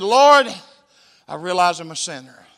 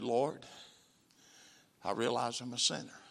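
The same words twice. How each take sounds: First: Prayer called out. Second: Soft repeated prayer. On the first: Shown as a demonstration. Preacher leading the prayer for him to repeat, loud. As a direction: lead the prayer line aloud. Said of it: "repeat it out loud". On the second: Retold or imitated. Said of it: "a voice said".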